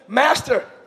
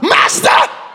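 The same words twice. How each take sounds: First: It is said in a plain, calm reading voice. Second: It is cried out in an intense, dramatic voice. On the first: "I don't read it like that" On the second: "Maybe I'm just extra"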